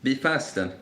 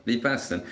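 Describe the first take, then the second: No difference in how they are said.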